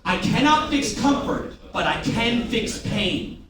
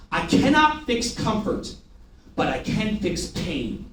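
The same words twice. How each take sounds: First: Cannot lifted higher, pain drawn out slowly; slower repeated mantra. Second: Slow, each word weighted like a mantra; slow emphatic mantra. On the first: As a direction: repeat the motto slowly with weight. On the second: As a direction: hammer home the motto slowly. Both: Shown as a demonstration. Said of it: "Say that with me".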